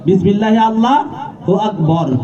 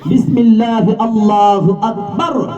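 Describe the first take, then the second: First: The last word ends with a short 'bor' sound. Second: The last word ends with a long 'bar' sound. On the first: The speaker calls it wrong. "অনেকে বিসমিল্লাহ আল্লাহু আকবর কইলায়" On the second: The speaker calls it right. "এটা বললেও হবে"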